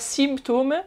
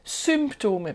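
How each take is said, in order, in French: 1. La première voyelle se prononce comme un 'i'. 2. La première voyelle se prononce presque comme un 'u'. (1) "c'est pas symptômes" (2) "le Y en allemand se prononce presque comme un U"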